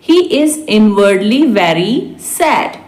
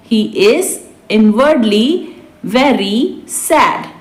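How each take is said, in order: First: Said in the usual way. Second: Spaced out for learners; slow repeat. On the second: Shown as a demonstration. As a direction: draw out the closing words. Teacher repeats translation word by word. (धीरे-धीरे, खींचकर)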